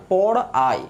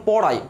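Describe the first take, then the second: First: "পড়াই" broken as পড়, আই; split into syllables. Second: Said in the usual way. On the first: Shown as a demonstration. Teacher asking students to notice, split into syllables. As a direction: separate the two beats of "পড়াই". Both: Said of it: "খেয়াল করে দেখেন, আমি বললাম".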